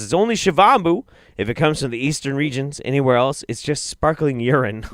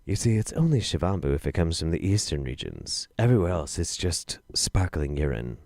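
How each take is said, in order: First: Said in the usual way. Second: Lower, softer, deliberate recital; reading it properly for full effect; dramatic reread. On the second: Shown as a demonstration. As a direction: savour it like a punchline. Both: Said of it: "Let me say that one more time".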